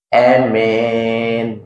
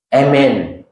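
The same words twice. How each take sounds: First: The first vowel is tilted toward an e sound. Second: The first vowel is cut short. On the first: "imalah itu yang uh, bacanya itu dimiringkan" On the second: "Itu al-qasru bacanya amin"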